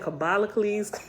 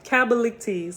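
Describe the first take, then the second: First: The name ends with a 'cles' sound. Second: The name ends with a 'ctes' sound. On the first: The speaker calls it wrong. "I was saying Kabalicles" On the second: The speaker calls it right. "I knew I was saying that wrong"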